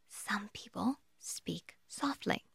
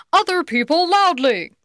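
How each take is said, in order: First: Slow, hushed near-whisper; speaking softly. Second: Loud, raised, higher voice; speaking loudly. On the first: Trainer showing how some prospects speak, softly. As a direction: drop to a very soft, slow murmur. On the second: Trainer showing how other prospects speak, loudly. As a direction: boom it out to show volume. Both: Shown as a demonstration.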